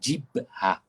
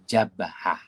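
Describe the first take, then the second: First: The first vowel is i. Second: The first vowel is a. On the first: The speaker calls it wrong. "Maka jangan dibaca jibhah" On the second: The speaker calls it right. "Dibaca dengan baris atas"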